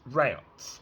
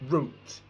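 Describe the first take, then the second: First: It is said the American way, like 'rout'. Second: It is said the British way, like 'root'. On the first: The speaker calls it wrong. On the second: The speaker calls it right.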